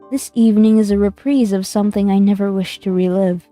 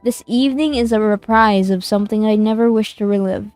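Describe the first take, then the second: First: The line is read in a soft, plaintive voice. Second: The line is read in a plain, neutral voice. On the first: The speaker calls it right. "His voice was soft, plaintive" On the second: The speaker calls it wrong. "the voice direction was a little late"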